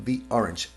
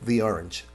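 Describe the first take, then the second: The two takes are said the same way.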